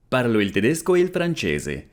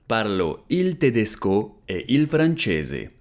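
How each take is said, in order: First: Said in the usual way. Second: Slow, careful, clearly spaced words; slow model repeat. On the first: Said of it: "repeated model sentence". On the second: Shown as a demonstration. Teacher repeating for students, slow and careful. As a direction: say it slowly for learners to copy. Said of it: "slow repeat of model".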